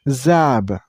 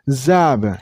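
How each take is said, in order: The two takes are said the same way.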